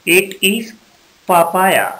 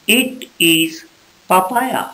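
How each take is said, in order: The two takes are said the same way.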